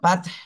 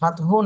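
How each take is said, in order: First: The word ends with a breathy consonant. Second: The word ends with an added vowel sound. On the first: The speaker calls it right. "ফাত ফাত এইভাবে" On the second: The speaker calls it wrong. "ফাতহু না"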